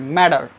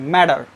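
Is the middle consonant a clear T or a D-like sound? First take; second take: D-like; D-like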